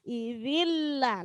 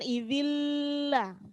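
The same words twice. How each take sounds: First: The n merges straight into the l. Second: The n is held with a nasal hum. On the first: The speaker calls it right. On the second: The speaker calls it wrong.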